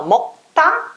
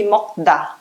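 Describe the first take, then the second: First: "mocta" with a hard T after the stopped K; strong T. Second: "mocda" with a voiced D after the stopped K; soft D version. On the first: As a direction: say "mocta", punching a tense "ta". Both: Shown as a demonstration. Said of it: "É mais fácil falar mocta do que mocda".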